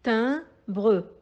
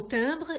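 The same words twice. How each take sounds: First: "Timbre" split as tim, bre, the final e sounded; syllable by syllable. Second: Said in the usual way. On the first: Shown as a demonstration. Teacher dividing the word for pupils, syllable by syllable. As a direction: say "Timbre" in two separate beats, tim... bre. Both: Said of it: "composé de deux syllabes".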